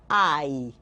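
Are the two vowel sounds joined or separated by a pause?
joined. The two vowels are joined without a pause. "aqui eu falo tudo junto"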